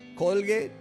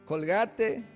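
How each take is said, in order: First: The name is pronounced with English sounds. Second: The name is pronounced with Spanish sounds.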